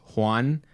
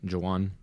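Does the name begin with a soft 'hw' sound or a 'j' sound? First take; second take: hw; j. First: The name begins with a soft breathy 'hw' sound. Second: The name begins with a 'j' sound. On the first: "my name is Juan" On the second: "Same spelling, they just say the J"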